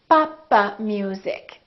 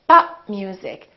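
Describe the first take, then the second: First: The p is released with an extra vowel. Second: The p is held without any release. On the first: The speaker calls it wrong. "an extra syllable" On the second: The speaker calls it right. "Three syllables"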